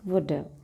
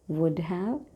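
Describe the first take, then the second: First: 'Have' is reduced and joined to 'would'. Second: Both words are said fully and separately.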